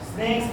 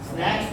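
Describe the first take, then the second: First: The vowel is the 'ay' of 'snake'. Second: The vowel is the open 'a' of 'cat'.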